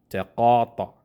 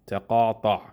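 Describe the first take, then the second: First: The vowel sounds like an open ah. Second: The vowel sounds like an open ah.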